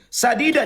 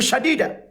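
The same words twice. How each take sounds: First: The first consonant is a plain s. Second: The first consonant is thicker, nearer sh. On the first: Speak words that are true. The speaker calls it right. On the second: Speak words that are harsh. The speaker calls it wrong.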